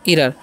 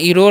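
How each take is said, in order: First: The last syllable sounds like 'er'. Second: The last syllable sounds like 'or'. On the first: The speaker calls it right. "क्या पढ़ते हैं, इरर" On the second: The speaker calls it wrong. "इरोर नहीं पढ़ना है"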